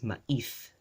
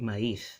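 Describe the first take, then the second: First: A glottal stop separates the two vowels. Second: The two vowels glide together without a stop. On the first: This is how Philippine Spanish says it. "in Philippine Spanish" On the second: This is how standard Spanish says it. "It's like glided together. There's no glottal stop"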